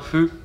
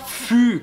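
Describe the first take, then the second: First: It starts with a light, breathy f sound. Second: It starts with a full, strong French f. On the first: The speaker calls it right. "c'est plus léger" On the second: The speaker calls it wrong. "Ça se prononce pas fu comme nous on le, on le ferait"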